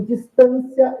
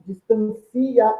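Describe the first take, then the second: First: 'distância' slow, stress on 'tân', final 'cia' one syllable; teacher demo of 'distância', stressed 'tân', ending 'cia' as one syllable. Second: 'distancia' slow, stress on 'ci', 'ci-a' split in two; teacher demo of 'distancia', 'ci' and 'a' as two syllables. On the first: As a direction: stretch 'distância' with 'cia' as a single glide. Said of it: "eu tenho ditongo". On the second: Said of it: "eu tenho hiato". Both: Shown as a demonstration.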